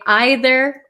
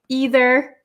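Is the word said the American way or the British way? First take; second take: British; American. First: It is said with the British pronunciation. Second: It is said with the speaker's American pronunciation. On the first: "especially um, British people, I think, say either" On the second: "I'm originally from the state of Wisconsin... And I say either"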